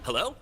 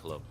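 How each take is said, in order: First: It is said in a high, put-on voice. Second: It is said in a normal, plain voice.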